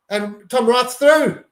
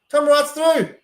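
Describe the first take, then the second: First: Higher, drawn-out call as the winger breaks; alarmed excitement. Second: Much higher, louder echo of the break call; frantic repeat. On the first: Fan watching the other side break through, slow and alarmed. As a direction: stretch the words as the danger opens. Opposing wing breaks the line. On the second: Fan repeating the call as the winger runs clear, frantic. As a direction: repeat it in rising panic. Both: Real, not acted.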